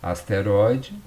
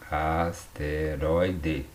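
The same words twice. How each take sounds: First: Said in the usual way. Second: "asteroide" very slowly as as-te-roi-de; teacher sounding out "asteroide", each syllable drawn apart. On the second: Shown as a demonstration. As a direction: break "asteroide" into separate syllables. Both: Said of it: "A sílaba tônica tá aqui".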